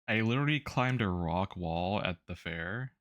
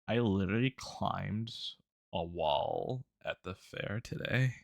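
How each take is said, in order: First: It is said in a normal voice. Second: It is said in a creaky vocal fry.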